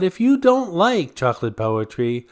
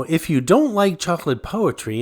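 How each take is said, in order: First: "you" pitched up and emphasized; single out "you" with a higher pitch; stress on you. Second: "don't" lifted above the rest; stress on don't. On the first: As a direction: lean on the word "you". Repeat singles out the doubter. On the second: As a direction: lean on the word "don't". First take of repeated condition. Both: Real, not acted.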